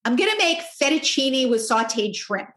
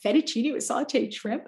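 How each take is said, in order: First: Said in the usual way. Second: "Fettuccine with sauteed shrimp" echoed as a question, rising at the end. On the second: Retold or imitated. Mom echoing son's "Fettuccine with sauteed shrimp", mildly incredulous question. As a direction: repeat "Fettuccine with sauteed shrimp" back in mild disbelief, lifting into a question.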